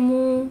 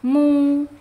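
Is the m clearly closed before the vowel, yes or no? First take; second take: no; yes. First: The vowel starts at once without a full m closure. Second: A full m closure is held before the vowel. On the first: The speaker calls it wrong. "jangan langsung mu, jangan langsung dimonyongkan" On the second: The speaker calls it right. "rapatkan dulu m baru ke dhammahnya"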